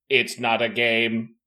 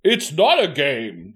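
First: It is said in a hollow, mechanical voice. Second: It is said in a plain, natural voice. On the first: The speaker calls it right. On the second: The speaker calls it wrong.

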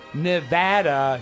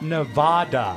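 First: The middle syllable sounds like 'vat'. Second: The middle syllable does not sound like 'vat'. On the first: This is how locals say the state's name. The speaker calls it right. "please say it's Nevada" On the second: This is how outsiders say the state's name. The speaker calls it wrong. "not Nevada"

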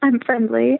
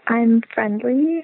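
First: It sounds like a statement, falling at the end. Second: It sounds like a question, rising at the end.

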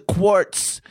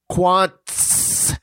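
First: It is said with an r sound before the ts. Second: It is said with an n sound before the ts. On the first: The speaker calls it wrong. "stop it with the quartz" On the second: The speaker calls it right. "The name is"

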